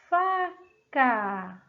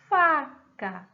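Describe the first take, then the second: First: "faca" in two slow, separated syllables. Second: Said in the usual way. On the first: Shown as a demonstration. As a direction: split "faca" into long FA and CA. Teacher sounding out word, then repeating.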